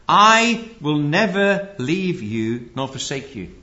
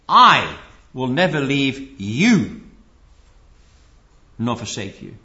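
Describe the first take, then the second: First: The word I carries no special stress. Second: The word I is strongly stressed. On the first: A promise that he will not abandon you. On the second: You must be careful not to leave him.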